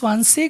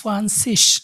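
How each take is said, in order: First: The word ends with a hard k sound. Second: The word ends with a soft hissing sound. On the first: "এই জির উচ্চারণটা আপনি সোয়ানসিকও বলতে পারেন" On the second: "সোয়ানসিসও বলতে পারেন"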